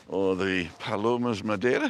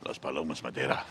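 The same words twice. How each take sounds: First: Said in the usual way. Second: "Las Palomas Madeira" said the Spanish way, lower and softer; Spanish pronunciation. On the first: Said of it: "is that right?". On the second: Shown as a demonstration. Vlogger retrying the pigeon name, in Spanish pronunciation. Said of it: "is that right? I don't know".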